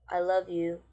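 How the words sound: It is said in a sad tone. "somebody that's sad and goes"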